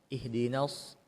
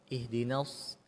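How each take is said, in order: The two takes are said the same way.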